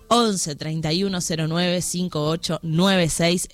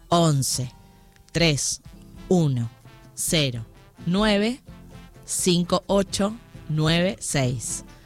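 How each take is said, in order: First: The number is said at normal speed. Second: The number is said slowly, digit by digit.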